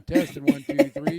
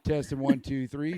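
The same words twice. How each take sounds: First: Loud, booming soldier mic check; booming Marine voice. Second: Louder mic check; booming Marine voice. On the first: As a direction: boom it out like a drill sergeant. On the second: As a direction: project like a Marine. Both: Real, not acted. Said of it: "use your booming Marine voice".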